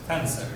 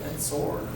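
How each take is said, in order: First: It is said with an English pronunciation. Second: It is said with a French pronunciation. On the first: "we pronounce it" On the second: "French would say that way, like that"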